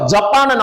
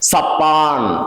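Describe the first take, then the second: First: The word begins with a 'j' consonant sound. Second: The word begins with an 's' consonant sound.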